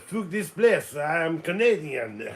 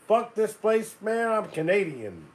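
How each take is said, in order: First: It is said in a French accent. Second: It is said in the speaker's plain accent.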